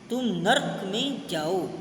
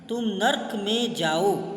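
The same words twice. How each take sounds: No difference in how they are said.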